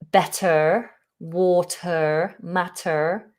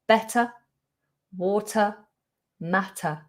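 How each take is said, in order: First: The endings are said with an R sound. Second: The endings are a weak schwa, no R. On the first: The speaker calls it wrong. "rather than saying" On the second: The speaker calls it right. "we ignore that R and we do a schwa"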